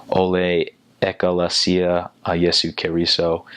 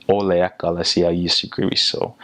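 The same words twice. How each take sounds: First: "Ole Ekalesia a Jesu Keriso" with flat English vowels; anglicized vowels; English-accented Samoan. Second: "Ole Ekalesia Jesu Keriso" with full open vowels; Samoan pronunciation. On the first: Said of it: "like, in an English accent". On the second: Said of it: "more pronounsive on those vowels". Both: Shown as a demonstration.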